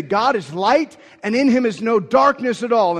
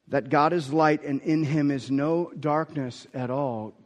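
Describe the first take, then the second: First: Every word pressed higher and louder; emphatic declaration. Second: Said in the usual way. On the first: Shown as a demonstration. Preacher shows how John proclaims it, emphatic and loud. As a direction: proclaim it as a bold decree. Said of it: "He's saying it so emphatically". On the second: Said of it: "and emphatically saying".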